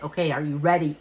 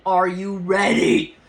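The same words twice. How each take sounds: First: Said in the usual way. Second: Louder, drawn-out repeat of the question; insistent, slow self-challenge; psyching herself up. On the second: Retold or imitated. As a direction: stretch it out loudly to rev yourself up. Repeats question to herself, more intensely.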